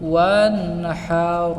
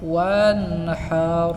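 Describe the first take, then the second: The two takes are said the same way.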